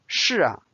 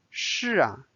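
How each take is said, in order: First: 是啊 with a lingering soft 啊 of agreement. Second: Said in the usual way. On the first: Shown as a demonstration. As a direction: agree gently, confirming. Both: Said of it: "make it a little bit softer and a confirmation".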